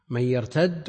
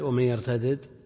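First: The final consonant is merged into one doubled sound. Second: The final consonant is split into two separate sounds. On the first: "بالإدغام" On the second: "وبالفك"

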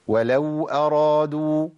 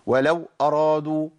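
First: The w sound flows on continuously. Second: The w sound is abruptly cut off. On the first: The speaker calls it right. "لا انا عندي صوت بيجري" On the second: The speaker calls it wrong. "ده قطعت صوت خالص"

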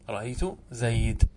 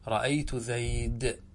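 First: The last word ends in a bare consonant. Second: The same.

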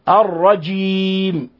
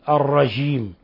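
First: The j is pronounced as a full standard j. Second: The j is softened close to a sh sound. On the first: The speaker calls it right. "إنما يوجد جيم" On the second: The speaker calls it wrong. "وهذه أقرب إلى الشين"

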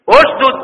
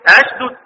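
First: The word begins with a u vowel. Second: The word begins with an a vowel. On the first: This is the reading of the other reciters. "لان ثالث الفعل ايه؟ مضموم" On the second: This is the reading of Ibn Amir. "هيبقى البداية عنده ايه؟"

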